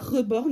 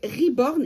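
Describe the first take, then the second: First: The word is pronounced the French way. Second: The word is pronounced the English way. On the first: The speaker calls it wrong. "et pas Reborn, même si ça s'écrit euh, avec un E" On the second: The speaker calls it right. "Ça se dit bien Reborn et ça vient de l'anglais"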